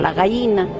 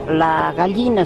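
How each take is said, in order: First: It is said the way coastal people say it. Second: It is said in the speaker's own highland accent.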